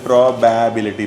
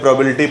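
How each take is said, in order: First: The middle 'ba' syllable is stretched out long. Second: It is said plainly, without stretching any syllable. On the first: This is how foreigners say it. "जो लोग विदेशी होते हैं वो क्या बोलते हैं" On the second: This is how Indians say it. "हम लोग बोलते हैं"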